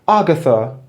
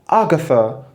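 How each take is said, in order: The two takes are said the same way.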